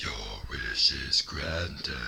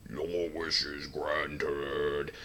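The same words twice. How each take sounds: First: Very low, slow menacing rasp; low villain take on the dragon; Doctor Claw voice. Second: Slow, booming low dragon god; drawn out like a giant dragon; deep slow Shenron voice. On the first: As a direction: growl it like a cartoon villain. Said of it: "Kinda sounded like Doctor Claw". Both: Retold or imitated.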